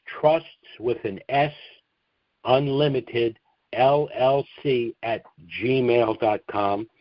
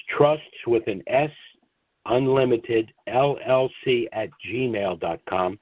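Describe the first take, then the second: No difference in how they are said.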